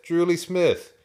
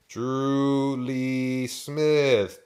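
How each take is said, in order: First: Drew Lee Smith in one go, high and loud; high, loud, unbroken "Drew Lee Smith"; brisk confirmation. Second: Drew Lee Smith stretched very slowly, raised and loud; long, loud, slow "Drew Lee Smith"; drawn-out realization. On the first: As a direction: say "Drew Lee Smith" straight through, raised, having got it. Farmer says it again briskly. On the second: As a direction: draw out each word of "Drew Lee Smith" as it dawns on you. Farmer repeats the name, finally understood. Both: A narrator's reading.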